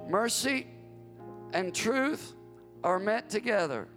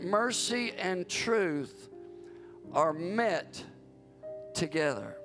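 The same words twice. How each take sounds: First: It is read at a normal pace. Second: It is read slowly and carefully.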